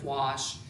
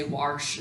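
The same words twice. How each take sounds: First: Said in the usual way. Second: "warsh" with an r sound before the sh; regional pronunciation. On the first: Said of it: "instead of "wash". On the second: Shown as a demonstration. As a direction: say "warsh" with an added r. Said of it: "might say "warsh" instead of "wash".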